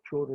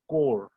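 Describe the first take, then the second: First: The word begins with a 'ch' sound. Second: The word begins with a 'k' sound. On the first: The speaker calls it wrong. "It is not chore" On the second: The speaker calls it right. "The H is silent"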